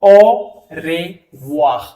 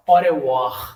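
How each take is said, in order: First: ओ रे वाह stretched very slowly, sounds pulled apart; au revoir drawn out. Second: अरे वाह said smoothly as one word; au revoir at normal speed. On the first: Teacher breaks au revoir into slow sounds for students. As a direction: spell out ओ रे वाह slowly, syllable by syllable. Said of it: "तो जैसे अब आप देखोगे". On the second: Teacher then says au revoir smoothly for students. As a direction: run अरे वाह together naturally. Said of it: "क्या बोलोगे, अरे वाह". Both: Shown as a demonstration.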